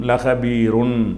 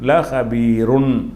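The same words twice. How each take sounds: No difference in how they are said.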